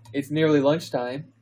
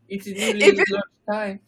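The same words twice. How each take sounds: First: It is spoken in the reader's plain accent. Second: It is spoken in a French accent. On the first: The speaker calls it wrong. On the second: The speaker calls it right.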